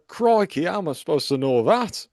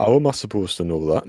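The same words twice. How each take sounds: First: Put-on a rough try at a Mackem accent, crikey pitched high; half-hearted mock Mackem accent. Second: Put-on a faint Dudley accent that slips back to the other one; lightly voiced Dudley accent. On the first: Host gives the sign off in a Mackem accent. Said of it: "Mackem accent". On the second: Host attempts the sign off in his own Dudley accent. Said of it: "I'll do it in a Dudley accent then".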